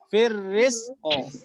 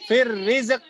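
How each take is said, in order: First: The final q ends with an audible bounce. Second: The final q stops flat with no bounce. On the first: The speaker calls it right. "Bukan fir rizq, tapi apa? Fir rizqo" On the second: The speaker calls it wrong. "fir rizq itu nggak boleh ya"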